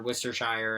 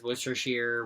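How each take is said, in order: First: "Worcestershire" ending in "shire"; mimicked pronunciation. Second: "Worcestershire" ending in "sheer"; mimicked pronunciation. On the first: Mimicking people who joke about the spelling, "Worcestershire" ending like "shyer". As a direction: say "Worcestershire" as WUSS-ter-SHY-er, rhyming with "fire". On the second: Mimicking people who joke about the spelling, "Worcestershire" ending like "sheer". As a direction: say "Worcestershire" as WUSS-ter-sheer. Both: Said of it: "everyone says Worcestershire, Worcestershire".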